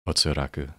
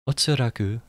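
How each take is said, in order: First: It is said in a plain tone. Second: It is said in a happier tone.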